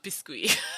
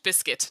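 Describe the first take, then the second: First: The word has a French pronunciation. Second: The word has an English pronunciation. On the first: The speaker calls it wrong. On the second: The speaker calls it right.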